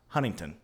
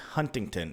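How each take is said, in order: First: The middle of the name is reduced. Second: Every syllable is pronounced fully and carefully. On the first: This is how the locals say it. The speaker calls it wrong. "It is not Huntington" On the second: This is the proper on-air pronunciation. The speaker calls it right. "It is Huntington"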